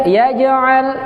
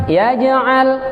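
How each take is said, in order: Both takes have the same delivery.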